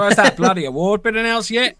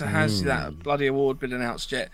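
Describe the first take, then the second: First: It is said in an Australian accent. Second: It is said in the speaker's normal accent. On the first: The speaker calls it right. "That's better. That was quite good. Your Australian accent is getting better" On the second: The speaker calls it wrong. "You didn't say it in an Australian accent"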